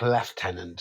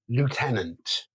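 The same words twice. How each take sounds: First: The first syllable sounds like 'lef'. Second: The first syllable sounds like 'loo'. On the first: The speaker calls it wrong. "There's no F's" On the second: The speaker calls it right. "I'm going to say it the American way because that's how it's spelled"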